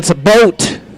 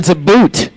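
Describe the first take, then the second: First: The name is said with an Iowa 'boat' vowel. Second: The name is said with a North Dakota 'boot' vowel.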